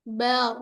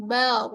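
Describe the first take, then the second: No difference in how they are said.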